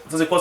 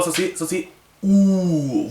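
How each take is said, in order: First: Said in the usual way. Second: Ou stretched slow and high, teacher naming the letter; teacher voice holding "ou" long and slow; drawn-out vowel demo. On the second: Shown as a demonstration. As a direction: draw out the vowel ou slowly and higher for the class.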